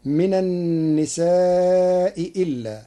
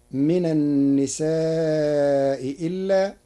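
First: النساء إلا recited slowly with both hamzas clear, nisaa'i illaa; Hafs reading. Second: In النساء إلا the second hamza is eased into a ي, nisaa'i yillaa; softened hamza. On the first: Teacher quoting the usual reading, both hamzas clear. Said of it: "قرأ ورش كلمتي". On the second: Teacher showing Warsh's eased hamza in النساء إلا. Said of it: "بتسهيل الهمزة الثانية". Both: Shown as a demonstration.

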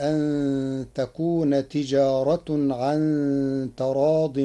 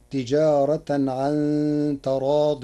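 First: تجارة read tijāratun, ending with damma -tun; slow recitation, تجارة with final -un; Warsh reading with nominative. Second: تجارة read tijāratan, ending in -atan; تجارة with the accusative ending -tan, Qur'anic recitation; Hafs reading with accusative. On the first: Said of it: "برفع التاء". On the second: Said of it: "قرأ ورش كلمة تجارة برفع التاء". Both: Shown as a demonstration.

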